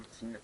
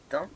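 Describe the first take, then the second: First: "thym" said as "tine", with a sounded n; alternative pronunciation. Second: "thym" said with a nasal vowel and silent m; pronunciation of thym. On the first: Player offering viewers the other name, "thym" as "tine". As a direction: say "thym" like English "tin", ee vowel. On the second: Player naming an ore for viewers, "thym" with nasal ending. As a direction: say "thym" like French "tain". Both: Shown as a demonstration. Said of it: "Ça dépend comment vous l'appelez".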